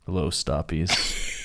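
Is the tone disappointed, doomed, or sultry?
disappointed. It sounds like a disappointed dad.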